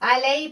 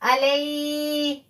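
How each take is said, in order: First: The 'ay' sound is short and soft. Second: The 'ay' sound is drawn out and forced. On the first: The speaker calls it right. "सिर्फ या को जाहिर करेंगे, अलई पढ़ेंगे" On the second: The speaker calls it wrong. "ऐसे नहीं पढ़ेंगे"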